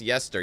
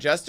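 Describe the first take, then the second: First: The word begins with a 'y' sound. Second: The word begins with a 'j' sound. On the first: "pronounced Yester" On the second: "Jester is pronounced"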